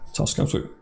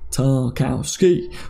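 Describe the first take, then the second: First: The name is said very quickly. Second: The name is said at a normal pace. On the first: The speaker calls it wrong. "really quick" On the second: The speaker calls it right. "There you go"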